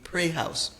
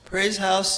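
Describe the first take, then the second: First: The first word has no final s sound. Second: The first word ends with an s sound. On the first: The speaker calls it right. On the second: The speaker calls it wrong.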